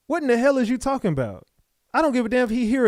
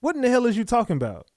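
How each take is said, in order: First: Exasperated disbelief. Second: Exasperated. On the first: Host repeats the same reaction. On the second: Host reacts to the interviewee's story. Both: Real, not acted.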